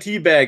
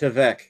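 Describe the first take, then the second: First: The name is read as the English word teabag. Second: The name is said as a short word, tvek. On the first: This is how the spelling looks. The speaker calls it wrong. "it looks like teabag" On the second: This is how the name is actually said. The speaker calls it right. "it's actually pronounced Tvek"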